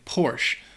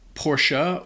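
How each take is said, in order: First: The name is cut short to one syllable. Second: The name is said with two syllables.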